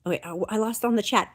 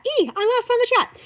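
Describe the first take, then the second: First: Said in the usual way. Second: Much higher, a playful squeal; squeaky mock panic. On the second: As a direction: squeal it like a flustered cartoon. Squeaky repeat after losing place.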